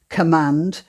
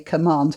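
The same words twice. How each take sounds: First: The vowel rhymes with the vowel of 'sand'. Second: The vowel does not rhyme with 'sand'. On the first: This is the older pronunciation that fits the poem's rhyme. "I'm saying command because that was supposed to rhyme with sand" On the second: This is how people say it today. "Nowadays, we say command"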